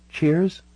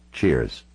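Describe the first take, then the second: First: High-pitched "Cheers" with a rising end; offering a toast in a raised character voice; woman's questioning toast. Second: Low "Cheers" with a falling end; returning a toast in a lowered voice; man's toast back. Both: Acted.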